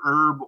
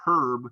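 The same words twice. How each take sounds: First: The word starts without an H sound. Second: The word starts with an H sound. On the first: This is the usual American way. "we typically don't use the H" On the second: This is the usual British way. "they're going to use the H"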